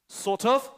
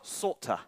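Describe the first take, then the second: First: The words are said in full, separately. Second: The words blend together in reduced form.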